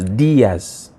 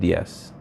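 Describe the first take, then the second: First: The i sound carries the stress. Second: The i sound is not stressed. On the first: The speaker calls it right. "the accent is on the I" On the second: The speaker calls it wrong. "It's not just Diaz"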